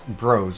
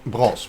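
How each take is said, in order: First: The name is said in a non-Dutch way. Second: The name is said in the Dutch way. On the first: The speaker calls it wrong. "I don't think it's Bros" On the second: The speaker calls it right. "which is how how we would pronounce it"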